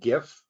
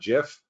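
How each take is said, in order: First: It begins with a hard g sound. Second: It begins with a j sound. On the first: This is the form the speaker grew up using. "missing a T for gift" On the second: This is the form its creators use. "the people who created it call it GIF"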